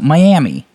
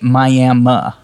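First: Miami ends with an 'ee' sound. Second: Miami ends with an 'uh' sound. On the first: The speaker calls it right. "So, Miami" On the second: The speaker calls it wrong. "They say Miami. / They do realize it's I at the end"

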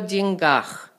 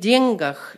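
First: It has the current, shifted stress pattern. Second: It has the old-fashioned stress pattern. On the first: "the stress changes in the other cases" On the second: "always uses the otherwise outdated stress pattern"

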